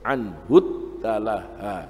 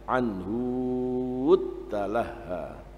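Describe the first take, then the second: First: The vowel after 'anh' is short. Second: The vowel after 'anh' is long. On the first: This follows the general rule. "kalau ikut kaidahnya mestinya harus" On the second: This is an exception in one reading tradition. "Al-Bazzi baca dengan"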